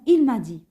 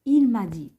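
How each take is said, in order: No difference in how they are said.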